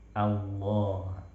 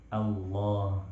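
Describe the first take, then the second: The two takes are said the same way.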